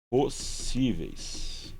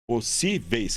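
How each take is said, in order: First: Possíveis split slowly into its syllables; slow syllable-by-syllable reading. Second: Said in the usual way. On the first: Shown as a demonstration. Teacher separating syllables for the class, very slow. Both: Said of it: "vamos fazer a separação silábica de possíveis".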